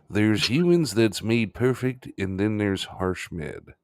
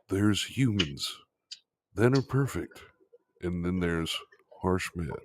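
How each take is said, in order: First: It is said in a normal voice. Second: It is said in a movie-trailer voice.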